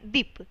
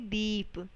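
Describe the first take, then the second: First: The vowel is said short. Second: The vowel is said long. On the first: The speaker calls it wrong. "अगर यहाँ पे छोटी की मात्रा लग, लगी होती तो हम इसका उच्चारण कैसे करते?" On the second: The speaker calls it right. "हम इसको बोलेंगे दीप"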